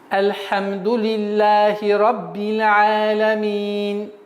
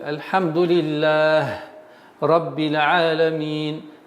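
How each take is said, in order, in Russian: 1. Она читается на одном дыхании, без остановок. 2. Она останавливается после первого слова, опуская его конечную гласную. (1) "произносить на одном э, выдохе" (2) "Если так, то нужно правильно будет"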